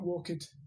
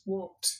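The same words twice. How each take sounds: First: It ends in an extra vowel before final d. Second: It ends in a bare t with no extra vowel. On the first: The speaker calls it wrong. "they're saying it with the id" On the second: The speaker calls it right. "when I say it without the id"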